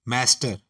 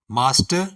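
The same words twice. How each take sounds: First: Master with a flat "ae"; flat American vowel in master. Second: Master with a broad "aa"; British master. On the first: Teacher listing the American form of master, flat "ae". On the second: Teacher listing the British form of master, broad "aa". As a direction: open British vowel in master. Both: Shown as a demonstration. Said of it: "इसी तरह".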